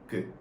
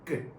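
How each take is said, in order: First: The first consonant is soft and relaxed. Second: The first consonant is tense and intense. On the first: "Kyok pronounces good" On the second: "it makes a more stressed and intense sound"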